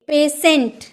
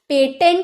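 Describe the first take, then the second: First: The middle consonant is a sh sound. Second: The middle consonant is a t sound. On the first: The speaker calls it right. "तो बोलेंगे पेशेंट" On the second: The speaker calls it wrong. "पेटेंट नहीं"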